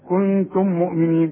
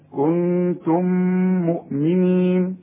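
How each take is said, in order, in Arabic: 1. الميمان منفصلتان، من دون غنة ممدودة. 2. الميمان تُدغمان مع همهمة أنفية ممدودة. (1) "ما تقولش بقى إذن كنتم مؤمنين" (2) "لا، كنتم مؤمنين"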